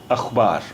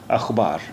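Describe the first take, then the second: The two takes are said the same way.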